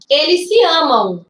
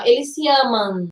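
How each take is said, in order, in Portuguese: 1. A palavra 'amam' termina com um glide nasal 'u'. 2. A palavra 'amam' termina em uma vogal nasal simples. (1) "Eu falo assim, ó ... a gente tende a colocar um U aqui" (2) "Eu não falo assim, ó, eles se amam, igual samba"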